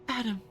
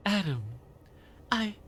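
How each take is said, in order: First: High, cackly witch call. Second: Toned-down eccentric woman; lightly voiced odd lady; conspiracy theorist woman. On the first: Acted. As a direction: call his name like a witch. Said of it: "the Wicked Witch of the West". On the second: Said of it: "How do I do conspiracy theorist woman?".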